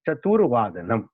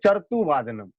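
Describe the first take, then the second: First: The r sound comes after the tu syllable. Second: The r sound comes before the tu syllable. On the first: The speaker calls it right. "रेफ जब भी लगेगा वा पे लगेगा, तब जाके ये इसका उच्चारण होगा" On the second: The speaker calls it wrong. "ऊपर का जो रेफ है तू पे लगा देते हैं तो हो जाता है"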